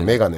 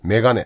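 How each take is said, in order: First: It has a standard Tokyo pitch accent. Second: It has a Kansai pitch accent.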